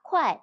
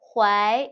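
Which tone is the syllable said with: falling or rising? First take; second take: falling; rising. First: The syllable is said with the falling fourth tone. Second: The syllable is said with the rising second tone. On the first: "เคไวควายเสียงวรรณยุกต์เสียงที่ 4" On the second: "เคไวควายวรรณยุกต์เสียงที่ 2"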